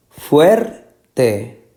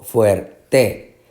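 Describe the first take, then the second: First: "Fuerte" in two slow pieces, FUER strongest; stress on first syllable. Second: "fuerte" in two slow pieces, weight on TE; stress on last syllable. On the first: Teacher repeating the choice, stressing FUER in "Fuerte". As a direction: lift and stretch FUER in "Fuerte". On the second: Teacher repeating the second option, stressing TE in "fuerte". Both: Shown as a demonstration. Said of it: "la que lleva más énfasis".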